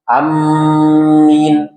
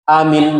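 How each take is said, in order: First: Short first vowel, doubled m, long i. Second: Short first vowel, single m, no long i. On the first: Scholars disagree whether it invalidates the prayer. "memendekkan hamzah, min ditasdidkan dan ada huruf ya" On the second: It invalidates the prayer by consensus of scholars. "hamzah dibaca pendek, mimnya tidak ditasdid dan huruf ya dihilangkan"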